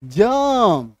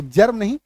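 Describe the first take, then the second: First: जर्म as a long "juhm", र dropped; semi-silent R. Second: जर्म with the र audible before म; fully sounded R. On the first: Teacher giving the actual pronunciation, जर्म drawn out without its R. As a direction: draw out the vowel in जर्म with no R. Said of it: "ये होगा actual उच्चारण". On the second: Teacher rejecting the everyday form, जर्म with R sounded. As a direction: keep the R in जर्म. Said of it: "तो जर्म नहीं". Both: Shown as a demonstration.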